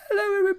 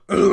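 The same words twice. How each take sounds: First: It is said in a high, squeaky voice. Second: It is said in a low, deep voice. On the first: The speaker is still a young boy. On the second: The speaker has grown up.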